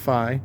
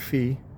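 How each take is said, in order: First: The vowel matches the start of fidelity. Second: The vowel matches the word fee. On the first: The speaker calls it right. "it's pronounced Phi" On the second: The speaker calls it wrong. "not Fee"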